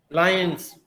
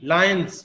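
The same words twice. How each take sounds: First: लायंस ending in a voiced z. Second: लायंस ending in a voiceless s; wrong s ending. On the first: Teacher correcting the plural, लायंस with final z. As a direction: say लायंस with a buzzing z at the end. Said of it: "यहाँ पे ज की तरह". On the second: Teacher showing what to avoid, लायंस with final s. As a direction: say लायंस with a hissed s, not z. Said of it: "not स". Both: Shown as a demonstration.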